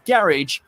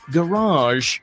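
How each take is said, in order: First: The word ends with a short, clipped vowel. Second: The final syllable has a long drawn-out A. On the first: "shortening the word" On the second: "pronounced with a long A at the end in America"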